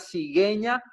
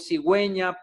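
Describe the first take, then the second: First: The u after the g is silent. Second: The u after the g is pronounced. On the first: "Si no, diría cigueña" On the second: "para indicar que dicha vocal debe pronunciarse"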